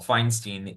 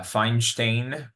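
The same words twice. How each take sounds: First: The name is said with an American pronunciation. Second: The name is said with a Yiddish pronunciation. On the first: "was a very Americanized uh, pronunciation of his name" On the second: "was the proper Yiddish pronunciation"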